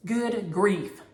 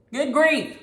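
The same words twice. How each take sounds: First: Said in the usual way. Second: "Good grief" higher and louder, exasperated. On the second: Real, not acted. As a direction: throw up your hands: "Good grief".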